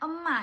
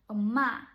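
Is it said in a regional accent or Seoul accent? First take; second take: regional; Seoul. First: It is said in her native regional accent. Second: It is said in standard Seoul accent.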